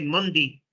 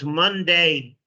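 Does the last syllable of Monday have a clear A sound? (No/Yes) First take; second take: No; Yes. First: The last syllable lacks a clear A sound. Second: The last syllable has a clear A sound. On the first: The speaker calls it wrong. "I've heard some people say" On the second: The speaker calls it right. "you got to have the A sound"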